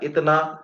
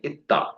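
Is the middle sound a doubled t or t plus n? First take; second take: T plus n; Doubled t. First: The middle has a t followed by n. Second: The middle has a long doubled t. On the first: This is the standard Urdu form. "Urdu में अगर बोला जाता है इतना" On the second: This is the Kolkata Urdu form. "कलकतिया में देखिएगा बोलेंगे इत्ता"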